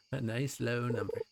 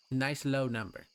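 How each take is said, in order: First: Chuckling through the words; laughing; laughing repeat. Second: Said in the usual way. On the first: Acted. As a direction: laugh at your own joke.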